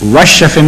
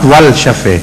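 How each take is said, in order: First: The L is silent, merged into the sh. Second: The L is pronounced before the sh. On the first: The speaker calls it right. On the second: The speaker calls it wrong.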